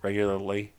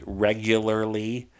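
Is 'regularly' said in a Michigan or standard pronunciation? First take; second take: Michigan; standard. First: It is said with a Michigan regional pronunciation. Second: It is said with a standard pronunciation. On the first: The speaker calls it wrong. "the way Michigan people say it" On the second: The speaker calls it right. "I try to pronounce it correctly"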